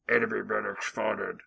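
It is said in a low-pitched male voice.

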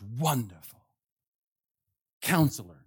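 The two words are split by a pause.

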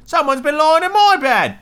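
It is said in a medium voice.

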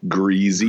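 It is said Southern-style with a z sound.

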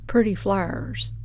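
It is said in a Tennessee accent.

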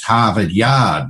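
The R sounds are dropped after the vowels. This is how it is said in New England. "where they don't pronounce the R. It's not a rhotic accent there"

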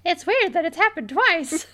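It is said in a Mickey Mouse voice.

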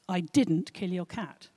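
The stress falls on 'didn't'.

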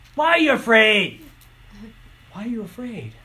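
It sounds harsh and rebuking.

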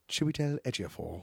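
It is said with a slight British accent.

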